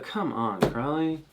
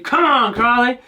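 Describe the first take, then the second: First: It sounds exasperated and disappointed. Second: It sounds excited and encouraging. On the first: The team has lost. "when they lose, it's the" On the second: The team is being cheered on. "It should be"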